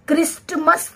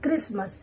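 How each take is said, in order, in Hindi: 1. t की आवाज़ साफ़ बोली जाती है। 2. t की आवाज़ छोड़ दी जाती है। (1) "हम क्रिस्टमस तो नहीं पढ़ते हैं, वो हमारा प्रोनाउंसिएशन गलत होगा" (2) "आप इसे क्रिसमस पढ़ेंगे, ... तो इसमें भी हमारा टी साइलेंट"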